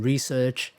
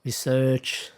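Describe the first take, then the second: First: Research stressed on the first syllable; stress contrast. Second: Research stressed on the second syllable; stress contrast. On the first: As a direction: say research as "REE-serch". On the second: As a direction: say Research as "ri-SERCH". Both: Shown as a demonstration. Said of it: "here are more examples".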